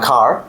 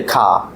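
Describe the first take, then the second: First: "car" with the final r sounded; r-coloured car. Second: "car" with a silent final r; British-style car. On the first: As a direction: say "car" American-style, ending on an r. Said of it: "It's not car". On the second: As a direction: say "car" as an open "kah". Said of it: "following the British". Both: Shown as a demonstration.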